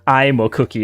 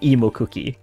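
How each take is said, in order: First: The first vowel sounds like 'eye'. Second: The first vowel sounds like 'eh'. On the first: The speaker calls it wrong. "I didn't write I in there" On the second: The speaker calls it right. "He he actually pronounced it correctly"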